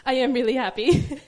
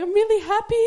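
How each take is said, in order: First: Louder, laughing, back at usual pitch; laughing assurance. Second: High, loud comic wail dissolving into laughter; mock crying. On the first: Real, not acted. Mother reassuring the congregation after her impression, laughing. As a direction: insist it sincerely through the laughter. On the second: New mother imitating herself over her baby, mock crying. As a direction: imitate yourself bawling with happiness. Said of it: "crying and crying and going".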